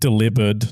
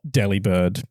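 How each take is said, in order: First: It is said like the word delivered. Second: It is said as deli plus bird. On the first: The speaker calls it right. "it's meant to be enunciated with the same inflection as delivered" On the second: The speaker calls it wrong. "not delibird"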